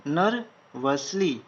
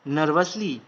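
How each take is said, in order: First: nervously stretched slowly syllable by syllable; slow, drawn-out dictation. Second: Said in the usual way. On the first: Shown as a demonstration. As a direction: draw out nervously for students writing. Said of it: "slowed take". (Nervously को धीरे-धीरे खींचकर बोलें) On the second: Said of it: "plain take".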